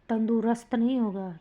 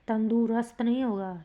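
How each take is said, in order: The two takes are said the same way.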